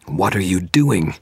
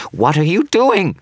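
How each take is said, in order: First: Said in the usual way. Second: Panicked shriek, very high and loud; high-pitched shriek. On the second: Acted. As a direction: shriek it in pure horror. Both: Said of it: "his voice rising to a high-pitched shriek".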